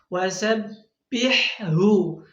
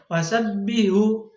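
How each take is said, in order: First: Both H sounds are pronounced clearly. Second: The H sound is not heard. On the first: The speaker calls it right. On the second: The speaker calls it wrong. "Jangan sampai wasabbihu, H-nya nggak terdengar"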